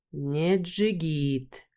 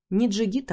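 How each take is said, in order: First: Очень медленно, с цоканьем, «Не джигит» тянет с укором; протяни «Не джигит», осуждая; осуждающе, качая головой. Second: «Не джигит» с лёгким подъёмом, передразнивая; передразни его «Не джигит»; насмешливо повторяя. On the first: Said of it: "покачал головой, громко цокая языком". (Бархан осуждает бывшего мужа: медленно, с цоканьем) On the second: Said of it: "повторяет слова Бархана с насмешкой". (героиня передразнивает Бархана: насмешливо) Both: Acted.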